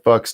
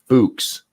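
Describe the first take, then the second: First: The name sounds exactly like the swear word. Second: The name does not sound like the swear word. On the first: This is how the name looks when read. "it looks like fucks to me. That's just how I would pr- pronounce it" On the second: This is how others pronounce the name. "You guys are saying Fuchs"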